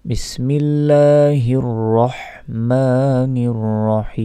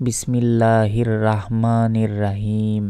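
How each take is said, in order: First: "রহমানির রহিম" with heavy, rounded "র", chanted slowly; correct recited Bismillah. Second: "বিসমিল্লাহির রাহমানির রাহিম" with light, plain "রাহ" and "রাহিম"; mispronounced Bismillah. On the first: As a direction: chant "বিসমিল্লাহির রহমানির রহিম" with long held vowels. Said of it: "বলতে হবে". ("রহমানির রহিম" মোটা র-এ সুরে টেনে তিলাওয়াত) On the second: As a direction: say "রাহমানির রাহিম" with thin ra, little melody. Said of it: "এটা সম্পূর্ণ ভুল". ("রাহমানির রাহিম"-এ পাতলা রা-এর ভুল উচ্চারণ) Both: Shown as a demonstration.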